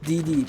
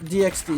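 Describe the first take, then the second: First: The Ds are said with no X between. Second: The letter X is spoken between the Ds. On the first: "I don't know why I don't call it D D" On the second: "I only say it on D X D"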